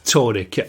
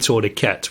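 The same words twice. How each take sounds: First: It is said the British way. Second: It is said the American way.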